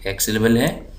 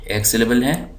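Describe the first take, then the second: No difference in how they are said.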